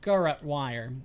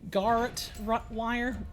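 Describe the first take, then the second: First: The middle portion of the word is not stressed. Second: The middle portion of the word is heavily stressed. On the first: The speaker calls it right. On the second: The speaker calls it wrong.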